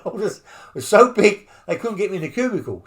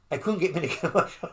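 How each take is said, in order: First: Louder, faster, pushing the punchline; emphatic retelling. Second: Quick, breaking into a laugh mid-line. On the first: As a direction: hammer the joke home. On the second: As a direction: laugh through the punchline. Laughing at his own size. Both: Real, not acted.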